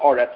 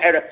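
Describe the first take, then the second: First: The first vowel is an a sound. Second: The first vowel is an e sound. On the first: It marks a major break in the verse. "when you have a major break in meaning" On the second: The word is in the middle of the verse. "the word eretz changes to aretz"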